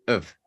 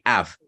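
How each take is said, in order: First: The vowel is reduced to a weak schwa. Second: The vowel is full and clearly pronounced. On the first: The speaker calls it right. "is a schwa" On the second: The speaker calls it wrong. "Don't say av"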